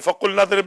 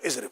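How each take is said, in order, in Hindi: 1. यह शब्द पिछले शब्द से जुड़ा है। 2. यह शब्द अकेले बोला जाता है।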